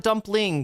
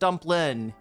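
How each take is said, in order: First: The word ends with a full 'ng' sound. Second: The word ends with a plain 'n' sound. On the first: "not the dumpling" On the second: "We're gonna drop the G, um, and just call it a dumplin"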